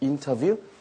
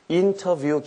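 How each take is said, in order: First: The t sound is weakened, almost like n. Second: The t sound is fully and clearly pronounced. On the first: "T 발음이 좀 약하게 되죠" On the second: "인터뷰 그냥 하셔도 되고요"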